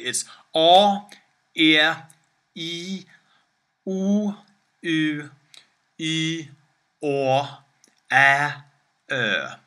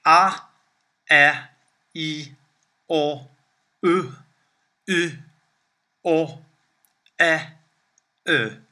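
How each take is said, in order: First: Each Swedish vowel "A", "E", "I", "U", "O", "Ä", "Ö" held long and drawn out. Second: Each Swedish vowel "A", "E", "I", "O", "U", "Ä", "Ö" clipped short and quick. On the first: Teacher showing students the long Swedish vowels, drawn out. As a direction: sing out each long vowel "A" through "Ö" one at a time, clearly. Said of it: "to go over quickly". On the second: Teacher showing students the short Swedish vowels, clipped. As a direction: snap off each short vowel "A" through "Ö", one by one. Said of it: "the short versions of that would be". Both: Shown as a demonstration.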